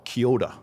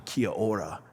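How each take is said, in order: First: "kia ora" rolled into "kyo-da"; "kia ora" run together, flowing, with a D-like R; Māori pronunciation. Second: "Kia ora" with an English R; Anglicised R in "Kia ora"; English pronunciation. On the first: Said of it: "they would say". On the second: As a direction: say "Kia ora" in separate English sounds, R untapped. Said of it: "in English". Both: Shown as a demonstration.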